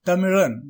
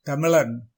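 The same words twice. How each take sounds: First: தமிழன் with curled-tongue zh glide; தமிழன் with true r-like ழ; correct ழ. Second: தமிழன் with ழ turned into ள; wrong ழ. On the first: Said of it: "இது சரியான உச்சரிப்பு". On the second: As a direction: say தமிழன் as "tamilan". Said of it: "என்று சொல்வது தவறு". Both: Shown as a demonstration.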